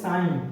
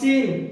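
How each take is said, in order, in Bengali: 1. স্বরটি লম্বা 'eye' ধ্বনি। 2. স্বরটি ছোট 'i' ধ্বনি। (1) "উচ্চারণ হবে সাইন" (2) "নট সিন"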